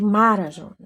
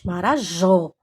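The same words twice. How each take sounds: First: The stress falls before the last syllable. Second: The stress falls on the last syllable. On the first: The speaker calls it wrong. "Você não diz Marajó" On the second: The speaker calls it right. "Você diz Marajó. Jó é a sílaba tônica"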